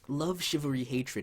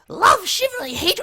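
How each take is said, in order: First: It is read in the reader's normal voice. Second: It is read in a strained put-on character voice. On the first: "I'm just gonna read it normally from now on" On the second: "one of the last times I can do this voice today because my throat is is on fire"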